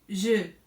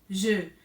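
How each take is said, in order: First: The vowel is an e with rounded lips. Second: The same.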